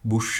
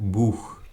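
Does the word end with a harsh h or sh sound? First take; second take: sh; harsh h. First: The word ends with a hissing sh sound. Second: The word ends with a harsh throaty h. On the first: The speaker calls it wrong. "ബുഷ് അല്ല" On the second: The speaker calls it right. "ബുഷ് അല്ല ബൂഹ്"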